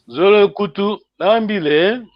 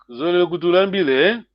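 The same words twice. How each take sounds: First: There are small pauses between the words. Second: The words run together without a pause.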